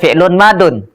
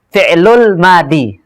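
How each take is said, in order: First: The second word ends with the sound -un. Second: The second word ends with a bare -i. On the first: "Jangan baca fi'lun madun" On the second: "itu salah"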